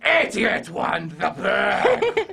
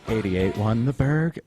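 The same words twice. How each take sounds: First: It is said in a crazy, put-on voice. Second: It is said in a plain, ordinary voice.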